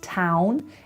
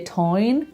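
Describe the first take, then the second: First: The vowel is a standard English 'ow'. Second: The vowel is a Belfast 'oi'-like sound. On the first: "that's town" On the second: "if you hear town"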